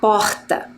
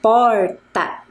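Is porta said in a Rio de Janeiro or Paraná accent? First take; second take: Rio de Janeiro; Paraná. First: It is said in a Rio de Janeiro accent. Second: It is said in a Paraná accent.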